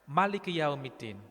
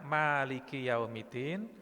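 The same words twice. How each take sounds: First: The vowel after the first 'm' is short. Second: The vowel after the first 'm' is long. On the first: God is the king of the Day of Judgment. "pendek manya" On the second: God is the owner of the Day of Judgment. "ma panjang"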